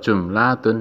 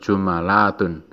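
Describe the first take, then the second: First: The m is followed by no vowel. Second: The m is followed by an a vowel. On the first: "mimnya disukun" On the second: "mimnya di fathah"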